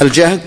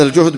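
First: الجهد said with a short a, al-jahd, meaning hardship; jahd with fatha. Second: الجهد said with a short u, al-juhd, meaning strength; juhd with damma. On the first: Teacher contrasting the reading of الجهد with fatha, al-jahd. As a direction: say الجهد as al-jahd, with an a vowel after the j. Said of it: "بالفتح الجهد المراد المشقة". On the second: Teacher reading the word الجهد with damma for students, al-juhd. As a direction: say الجهد as al-juhd, with a u vowel after the j. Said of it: "هذا الجهد بالضم". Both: Shown as a demonstration.

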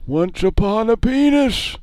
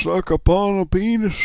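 First: Put-on high, slow old man storybook voice; Grandpa voice. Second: Put-on high, loud old man voice; squeaky old grandpa croak. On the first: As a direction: drag it out like a squeaky grandpa. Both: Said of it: "you were doing Grandpa before".

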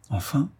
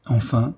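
First: «Enfin?» asked higher and softer with a rising tune; «Enfin?» as an eager nudge to go on; curious question. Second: «Enfin» left hanging with a small rise, then cut short; «Enfin» broken off mid-thought; trailing off. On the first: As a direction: prompt him with «Enfin?». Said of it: "demanda Jean". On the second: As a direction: stop dead on «Enfin». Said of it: "Il s'arrêta subitement". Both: A narrator's reading.

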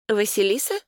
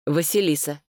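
First: Higher, rising question; questioning echo. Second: Said in the usual way. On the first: A narrator's reading. Sister hears brother's answer, puzzled questioning echo. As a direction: repeat the name as a puzzled question.

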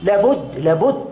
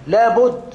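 First: لابد repeated, rising each time; insistent repetition. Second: لابد called out higher and louder; loud insistence. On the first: Teacher repeats لابد to students, insistent. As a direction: press لابد twice. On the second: Teacher urging students to read, loud insistent لابد. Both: Real, not acted. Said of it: "لابد أن تقرأ".

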